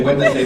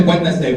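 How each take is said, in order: First: Wednesday said as wed-nes-day, every letter; Wednesday pronounced letter by letter; Wednesday spelled out. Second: Wednesday, normal wenz-day; the usual Wednesday; Wednesday said plainly. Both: Shown as a demonstration. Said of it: "That's not how you say it".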